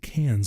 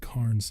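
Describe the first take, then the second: First: The word is said without an R sound. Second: The word is said with an R sound. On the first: This is how local people say it. "the Australians don't say their R's, so they say it Cairns" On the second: This is how the speaker's own group says it. "We would say Cairns"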